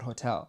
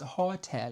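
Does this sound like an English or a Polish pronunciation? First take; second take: English; Polish. First: It is pronounced the English way. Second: It is pronounced the Polish way. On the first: The speaker calls it wrong. "not hotel" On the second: The speaker calls it right. "oh no, it's hotel"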